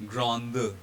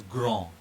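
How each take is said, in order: First: "grande" with the final D sounded; French grande, voiced D. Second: "grand" with the final D left silent; French grand, silent D. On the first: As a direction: let the D ring at the end of "grande". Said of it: "this D here will be voiced". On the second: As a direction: end "grand" on a nasal vowel, no D. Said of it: "is pronounced as". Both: Shown as a demonstration.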